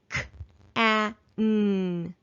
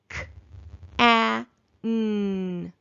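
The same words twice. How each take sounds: First: The sounds are spoken a little faster. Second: The sounds are spoken slowly. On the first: "a little faster" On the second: "slowly at first"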